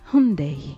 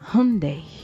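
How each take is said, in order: Both takes have the same delivery.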